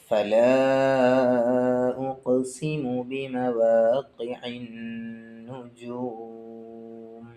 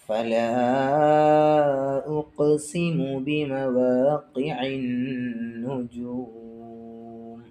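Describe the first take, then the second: No difference in how they are said.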